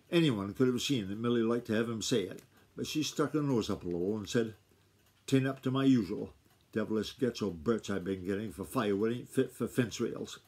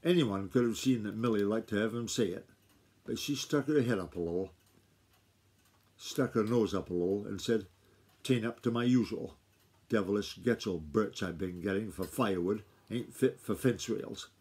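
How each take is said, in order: First: Too fast. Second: Slower. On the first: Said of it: "she says I'm reading too fast". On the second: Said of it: "I'll read that paragraph again". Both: Shown as a demonstration.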